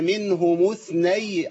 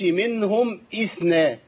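First: The two words link with no glottal stop. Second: A glottal stop starts the second word. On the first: The speaker calls it right. "الهمزة عندي مش موجودة في الوصل" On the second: The speaker calls it wrong. "ما قلتش منهم اثنى"

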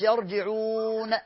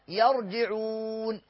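First: The silent consonant is released with a bounce. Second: The silent consonant is held without a bounce. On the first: The speaker calls it wrong. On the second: The speaker calls it right.

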